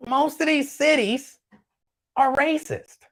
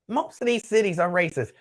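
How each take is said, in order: First: "these cities" pitched much higher and slow, pressing down on "these"; emphatic. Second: Said in the usual way. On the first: Real, not acted. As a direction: lean hard on "these", stretch it out. Emphatic claim, then he restates it.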